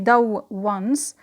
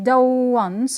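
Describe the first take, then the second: First: Two separate w sounds are pronounced. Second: One lengthened w sound links the words. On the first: The speaker calls it wrong. "We don't say do once" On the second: The speaker calls it right. "we pronounce it slightly longer than usual"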